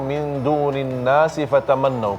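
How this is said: Nas is joined to the next word with a vowel. The speaker calls it wrong. "tidak perlu"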